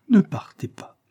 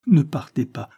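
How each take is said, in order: First: Ne partez pas breathed as a high whisper; whispered plea. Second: Ne partez pas cried out louder, falling at the end; anguished plea. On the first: Isabel's last begging repeat to Levison, whispered. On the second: Isabel begging Levison not to leave, loud anguished plea. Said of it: "cria-t-elle avec angoisse". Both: Acted.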